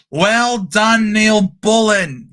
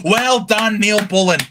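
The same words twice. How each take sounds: First: Drawn-out shouted cheer. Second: Said in the usual way. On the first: Real, not acted. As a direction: bellow the praise across the room. Cheering a player's good play.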